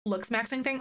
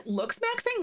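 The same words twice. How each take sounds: First: Said in the usual way. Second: Much higher, baffled "Looks maxing?"; surprised question. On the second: Real, not acted. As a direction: ask "Looks maxing?" in disbelief. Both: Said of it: "repeats the phrase puzzled".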